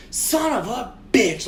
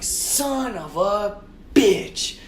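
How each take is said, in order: First: Higher, slow retold outburst; loud angry curse. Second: Very slow, higher drawn-out curse; exasperated cursing. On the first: Driver sees the scratched bumpers, retold angry outburst. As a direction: draw out the mock-angry curse. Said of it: "I say it really loud". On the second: Retold or imitated. Driver curses after scraping the car, long retold groaning curse. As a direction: stretch every word in mock agony.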